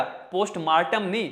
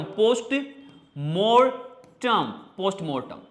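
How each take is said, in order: First: पोस्टमार्टम said with the Hindi 'maar'; wrong pronunciation. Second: पोस्टमार्टम as post-mortem, very slow; correct pronunciation. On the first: Teacher mimics pupils' common पोस्टमार्टम. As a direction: say पोस्टमार्टम as post-maartam. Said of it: "पोस्टमार्टम बोलते हैं ना बेटा". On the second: Teacher models English पोस्टमार्टम for the class. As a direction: stretch पोस्टमार्टम with 'mor'. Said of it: "but English में मोर्टम". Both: Shown as a demonstration.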